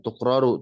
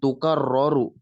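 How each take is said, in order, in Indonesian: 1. Huruf k langsung bertemu dengan satu r. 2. Setelah k ada vokal, lalu r yang dobel. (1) "bukan tukraru" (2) "tapi tukarroru, dia fi'il"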